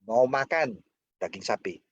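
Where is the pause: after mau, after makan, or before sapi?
after makan. A pause comes right after the second word. Asking whether the listener wants to eat it or do something else. "Mau makan atau enggak?"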